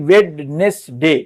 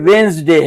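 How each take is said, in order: First: The middle 'd' sound is pronounced. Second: The middle 'd' sound is silent. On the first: The speaker calls it wrong. "ना कि वेडनेसडे" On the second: The speaker calls it right. "ये वेंसडे है"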